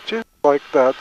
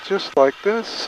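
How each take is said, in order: First: Said in the usual way. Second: Slow, softer coaching, drawn out. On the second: Shown as a demonstration. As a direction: ease it out slowly and quietly.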